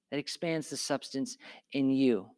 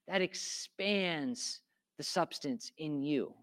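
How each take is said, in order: First: Said in the usual way. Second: Slow, quiet, every word weighed; slow and deliberate. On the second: Real, not acted. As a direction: let it sink in slowly.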